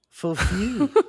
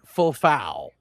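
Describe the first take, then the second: First: The second syllable sounds like 'few'. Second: The second syllable sounds like 'foul'. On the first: The speaker calls it right. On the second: The speaker calls it wrong.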